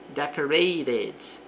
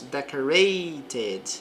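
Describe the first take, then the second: First: The middle t sounds like a quick r. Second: The middle t is a clear t sound.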